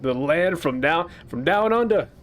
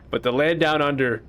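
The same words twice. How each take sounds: First: A bad, hammed-up Australian accent. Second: Said in the usual way. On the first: Player mocking the Australian game character's voice, bad Australian accent. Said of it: "She's got an Australian accent". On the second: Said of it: "I can't do an Australian accent".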